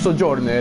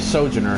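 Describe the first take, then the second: First: It is said in an Italian accent. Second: It is said in an American accent. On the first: "Ricardo being Italian" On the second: "so I say Sojourner"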